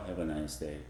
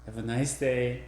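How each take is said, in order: First: Softer, lower have a nice day; tender low goodbye. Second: Said in the usual way. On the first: Shown as a demonstration. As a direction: say it gently and low. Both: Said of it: "That is quite different".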